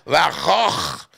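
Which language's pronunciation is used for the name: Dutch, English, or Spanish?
Dutch. It is said with a throaty Dutch pronunciation. "Su nombre en holandés se pronuncia Van Gogh. Es de aquí abajo"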